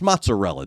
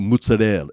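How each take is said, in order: First: It is said with a plain American accent. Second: It is said with an Italian-style accent.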